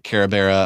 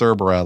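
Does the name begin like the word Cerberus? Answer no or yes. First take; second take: no; yes. First: The name does not begin like Cerberus. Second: The name begins like Cerberus. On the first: This is how others mispronounce it. The speaker calls it wrong. "like they said on Donut Carabera" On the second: This is the proper pronunciation. The speaker calls it right. "no, it's Cerbera, like Cerberus"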